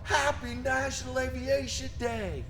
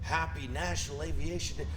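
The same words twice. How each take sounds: First: It is said with the most energy. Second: It is said with moderate energy.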